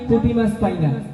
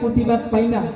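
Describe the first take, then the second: First: It is said in the speaker's normal adult voice. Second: It is said in an imitated small child's voice. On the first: "আমার কণ্ঠে আমি এরকম করে বললাম।" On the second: "ছোট বাচ্চারা বলবে"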